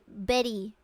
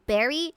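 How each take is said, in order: First: It is said with a Japanese katakana accent. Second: It is said with an ordinary English accent.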